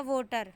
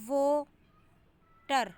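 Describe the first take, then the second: First: Said in the usual way. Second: Water very slow, broken into 'waa' and 'ter'; syllable stress. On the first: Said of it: "जैसे syllable की बात करें". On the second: Shown as a demonstration. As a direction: hold the first syllable of water, pause, then 'ter'. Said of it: "मतलब यहाँ पे stress है".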